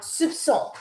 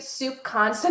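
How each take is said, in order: First: The middle consonant is a soft S sound. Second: The middle consonant is a hard K sound. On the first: The speaker calls it right. "they make it an S" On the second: The speaker calls it wrong. "I was pronouncing it soup constant"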